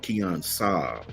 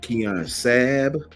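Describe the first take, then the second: First: The surname is said like the car. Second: The surname is not said like the car.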